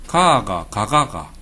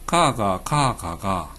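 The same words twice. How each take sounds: First: 경상도 억양으로 위의 가; upper 가 pronunciation. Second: 경상도 억양으로 아래의 가; lower 가 pronunciation. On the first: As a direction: hit 가 as in the upper line. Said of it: "위에는 발음이". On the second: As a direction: trail 가 off low as in the lower line. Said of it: "밑에 얘는". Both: Shown as a demonstration.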